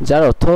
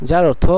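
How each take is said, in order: No difference in how they are said.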